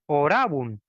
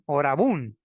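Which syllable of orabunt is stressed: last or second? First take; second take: second; last. First: The stress is on the second syllable. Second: The stress is on the last syllable. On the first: The speaker calls it right. "La fuerza de voz va en la segunda, ra" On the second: The speaker calls it wrong. "que muchos pronuncian mal"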